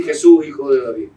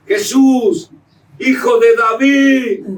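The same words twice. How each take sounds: First: Said in the usual way. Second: "Jesús, hijo de David" cried out high, loud and slow; loud pleading cry. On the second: Shown as a demonstration. Preacher demonstrating Bartimeo's cry, high, loud, slow. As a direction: call "Jesús, hijo de David" like a desperate blind beggar. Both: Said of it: "Pero no decía así".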